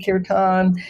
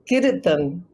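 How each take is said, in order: First: The r is plain, with no tongue vibration. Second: The r is trilled, with the tongue vibrating. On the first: "Everybody in New York, in the yoga centers" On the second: "you're letting the tongue vibrate right there on the palate behind the teeth"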